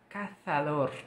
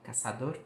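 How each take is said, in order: First: The z is said with the tongue between teeth. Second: The z is said as a plain s sound. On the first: This is how it is said in Spain. "a letra seta é pronunciada com a língua entre os dentes" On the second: This is how it is said in other Spanish-speaking countries. "Z é Z apenas com som de cedilha normal"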